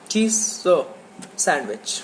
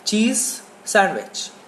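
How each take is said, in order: First: A separate sound breaks between the two words. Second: The z flows smoothly into the s sound. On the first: The speaker calls it wrong. "Don't say like this" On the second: The speaker calls it right. "just leave your tongue"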